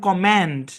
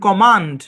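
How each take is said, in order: First: The vowel is a flat 'a' as in cat. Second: The vowel is a broad, open 'ah' sound. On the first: "American ইংলিশে এই শব্দের উচ্চারণ" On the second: "British ইংলিশে এই শব্দের উচ্চারণ"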